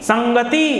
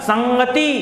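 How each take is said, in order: The two takes are said the same way.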